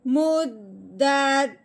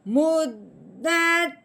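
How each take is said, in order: First: The voice drops low at the end. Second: The voice stays level at the end. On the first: The statement is complete here. "सिर्फ हमने अपना लहजा नीचे को लेके आना है" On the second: The sentence continues. "पहले हमने पढ़ना है मुद्दत"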